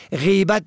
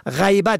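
First: غیبت as "ghibat"; long "i" after the gh in غیبت; kasra on first letter. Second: غیبت as "ghaybat"; "ay" diphthong in غیبت; fatha on first letter. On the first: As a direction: say غیبت as GHI-bat. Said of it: "به کسر اول". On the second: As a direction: say غیبت as GHAY-bat. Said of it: "به فتح اول". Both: Shown as a demonstration.

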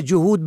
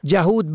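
First: جهود as "juhud"; rounded "u" after the j in جهود; first vowel "u". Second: جهود as "jahud"; fatha on first letter. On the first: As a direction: say جهود as ju-hud. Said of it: "به فتح اول یهودی". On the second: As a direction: open "a" after the j in جهود. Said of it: "به فتح اول". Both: Shown as a demonstration.

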